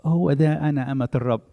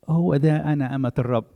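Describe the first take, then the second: First: It is said in a sad, resigned tone. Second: It is said in a sad, resigned tone.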